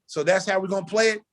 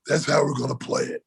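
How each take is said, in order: First: "So that's how we're gonna play it?" asked higher, as a challenge; retold disbelieving check on "play it"; challenging question. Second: "That's how we're gonna play it" as a falling statement; retold matter-of-fact reply, closing on "play it"; flat confirmation. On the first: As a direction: ask "play it" as a pointed question. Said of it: "So I said". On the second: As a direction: answer firmly, dropping on "play it". The curt answer to that question.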